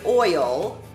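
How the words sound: The vowel glides from o to i. The speaker calls it wrong. "not pronounced that way"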